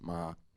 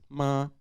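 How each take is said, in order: First: The pitch stays level and low. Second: The pitch stays level and high. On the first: "the low tone is marked with a with a grave accent" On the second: "so it is a high tone"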